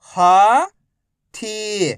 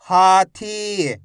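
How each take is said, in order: First: Each syllable slowly held, first one rising. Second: Whole word in one go, vowels held; syllables joined. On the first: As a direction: break the word into long, separate syllables. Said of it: "एक अक्षर का उच्चारण करके". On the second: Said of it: "तो मिलके बन जाएगा". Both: Shown as a demonstration.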